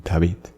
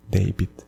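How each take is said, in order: First: David as dah-VEET, the translated name; Spanish-style "David", end-stressed with ee; Spanish pronunciation. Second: David as DAY-bid, the English name; English-style "David", front-stressed; English pronunciation. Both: Shown as a demonstration. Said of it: "You translate even the name".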